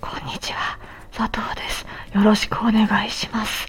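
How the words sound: The voice is weak, breathy and hoarse.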